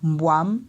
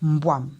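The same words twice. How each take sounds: First: The pitch rises on the vowel. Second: The pitch falls on the vowel. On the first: It means luck. "on monte et on descend en ton montant" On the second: It means snake. "on descend avec l'intonation au niveau du A qui veut dire le serpent"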